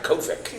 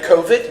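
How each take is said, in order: First: The word ends with a k sound. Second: The word ends with a d sound. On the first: The speaker calls it wrong. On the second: The speaker calls it right.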